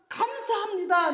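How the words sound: It is said with joyful, heartfelt emotion. The thanks comes from a moved heart. The speaker calls it right. "기쁨으로 받으면은"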